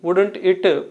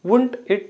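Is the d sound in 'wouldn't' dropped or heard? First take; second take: heard; dropped. First: The d sound in wouldn't is clearly heard. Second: The d sound in wouldn't is dropped. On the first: "పాటించేటటువంటి దేశాలు కూడా ఉన్నాయి" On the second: "proper pronunciation అండి"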